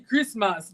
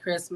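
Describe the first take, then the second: First: It is said with a Nigerian English accent. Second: It is said with an American English accent. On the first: This is how the local children expect it said. The speaker calls it right. "it's supposed to be Christmas" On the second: This marks the speaker as a foreigner. The speaker calls it wrong. "You mispronounce all the regular words"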